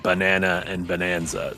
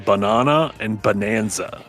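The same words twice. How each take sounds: First: Said in an American accent, vowels sounding similar. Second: Said in a non-American accent, vowels kept distinct. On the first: This is how people in the US say it. "in the U S we say" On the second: This is how the other person says it. "I think you say"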